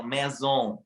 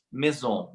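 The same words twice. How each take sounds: First: "maison" with a strongly nasalized final vowel; nasal French maison. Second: Said in the usual way. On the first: Shown as a demonstration. Learner copying French natives, nasal maison. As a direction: push the "on" of "maison" through the nose. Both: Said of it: "mais anasalado".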